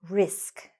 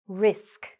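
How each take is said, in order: No difference in how they are said.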